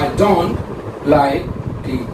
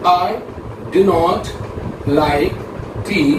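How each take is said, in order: First: The negative is said as one contracted word. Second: The negative is said as two full words. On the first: The dislike is stated plainly. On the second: The dislike is stated with extra emphasis.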